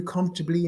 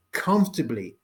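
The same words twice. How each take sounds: First: Said in the usual way. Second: "Comfortably" set apart as a word of its own; emphasis on comfortably. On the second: Shown as a demonstration. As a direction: stress "Comfortably" firmly, with a falling close. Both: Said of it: "Emphasize the word comfortably".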